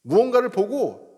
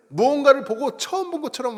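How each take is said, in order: First: Said in the usual way. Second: Mock amazement. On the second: Shown as a demonstration. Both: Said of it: "감탄사가 뭘까요".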